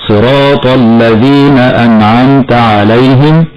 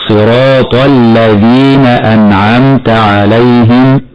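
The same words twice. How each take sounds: First: Slow recitation with dark, thickened ل in "الذين"; wrong heavy lam. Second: "الذين" with a thin, clear ل after heavy ط; slowly recite, keeping the ل of "الذين" light; correct light lam. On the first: Teacher repeats the mistake, heavy ل in "الذين". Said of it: "هكذا خطأ مرة أخرى". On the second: Teacher corrects the mistake, light ل in "الذين". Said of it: "والصواب ترقيق اللام هكذا". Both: Shown as a demonstration.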